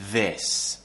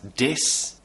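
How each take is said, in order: First: It begins with a th sound. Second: It begins with a d sound. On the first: The speaker calls it right. "the tongue has to go between the teeth, like this" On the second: The speaker calls it wrong. "many students who pronounce the word this as dis"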